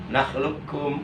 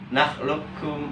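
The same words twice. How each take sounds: No difference in how they are said.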